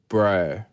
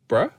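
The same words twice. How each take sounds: First: It is said in an Australian accent. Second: It is said in a New Zealand accent.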